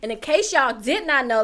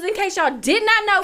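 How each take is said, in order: First: Said in the usual way. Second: Loud, high hype announcer call. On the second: Shown as a demonstration. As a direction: belt it like a fight announcer. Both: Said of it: "let me get my announcer voice on".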